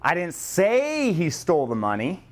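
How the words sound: The stress is on the word say.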